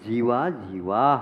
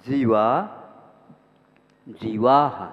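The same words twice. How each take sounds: First: The two words run together without a pause. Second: There is a pause between the two words. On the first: It means living and non-living beings. The speaker calls it right. "ये ऐसे बोलिए तो आपका वो पाठ ठीक होगा" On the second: It means many living beings, and again many living beings. The speaker calls it wrong. "ये गलत है। आप रुक रहे हैं"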